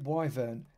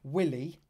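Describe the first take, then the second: First: The first syllable sounds like the word 'why'. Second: The first syllable has a short 'i' sound.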